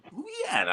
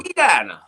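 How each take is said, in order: First: Louisiana pitched much higher, a strained Louisiana accent; higher Louisiana accent try. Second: Louisiana said as a first, louder attempt at the Louisiana accent; trying a Louisiana accent. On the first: Host gives the Louisiana accent a second shot, higher Louisiana attempt. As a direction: go up high on Louisiana to fake the Louisiana accent. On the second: Host tries the Louisiana accent and fails, attempting a Louisiana accent. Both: Shown as a demonstration. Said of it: "I can't, I can't do it".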